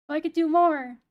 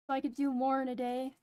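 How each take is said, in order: First: More shouted, falling hard; loud emphatic. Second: Said in the usual way. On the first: Shown as a demonstration. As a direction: punch out more loudly.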